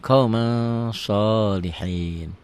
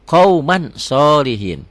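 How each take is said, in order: First: "qaumang" with a long ng hum before "sholihin"; held ikhfa ng. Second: Said in the usual way. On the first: Shown as a demonstration. Teacher shows the reading, "qaumang" ending in held ng. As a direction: slowly stretch the end of "qaumang" into "sholihin". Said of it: "N-nya tambah G jadi eng". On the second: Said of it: "di sini qauman".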